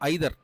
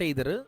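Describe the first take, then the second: First: The first vowel sounds like 'eye'. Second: The first vowel sounds like 'ay'. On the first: The speaker calls it right. "ఐదర్ అని చదవాలి" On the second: The speaker calls it wrong. "Not ఎయిదర్"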